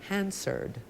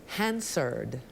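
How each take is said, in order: Both takes have the same delivery.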